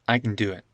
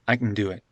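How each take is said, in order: Both takes have the same delivery.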